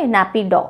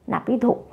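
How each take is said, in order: First: Said in the usual way. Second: नैपी धो with a soft breathy Hindi "dho" ending; softer नैपी धो, ending on "dho" rather than "daw"; Hindi pun pronunciation. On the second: Shown as a demonstration. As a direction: end नैपी धो lightly on aspirated धो. Memory-hint pun on Naypyidaw.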